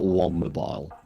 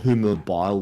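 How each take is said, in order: First: It begins with 'womb', adding an extra m. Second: It begins with a 'who' sound, one m. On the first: The speaker calls it wrong. "it's not Wombmobile" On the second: The speaker calls it right. "Whomobile or Whomobile would be correct"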